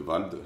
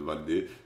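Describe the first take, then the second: First: The name has one syllable, ending in a consonant. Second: The name has two syllables, ending in a vowel. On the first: The speaker calls it right. "apparemment ça se prononce Vald" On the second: The speaker calls it wrong. "maintenant je l'appelle [name]"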